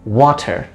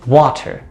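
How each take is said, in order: No difference in how they are said.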